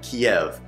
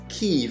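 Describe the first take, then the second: First: The name is said as 'Kiev'. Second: The name is said as 'Kyiv'. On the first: The speaker calls it wrong. "not Kiev" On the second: The speaker calls it right. "pronounced Kyiv"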